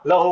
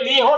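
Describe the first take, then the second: First: The first vowel is an 'a' sound. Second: The first vowel is an 'i' sound. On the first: The speaker calls it right. "लहू होना" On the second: The speaker calls it wrong. "ये ली हो नहीं होना"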